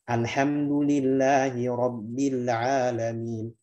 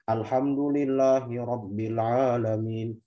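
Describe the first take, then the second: First: The vowels are opened to a moderate, even degree. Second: The vowels are cramped with too little mouth opening. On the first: The speaker calls it right. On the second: The speaker calls it wrong. "Yang salah atau yang kurang"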